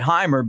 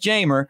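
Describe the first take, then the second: First: The name begins with an H sound. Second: The name begins with a J sound. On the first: Others with the same spelling say it this way. "the J is a H sound" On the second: This is how the player says his own name. "but it is Jeimer"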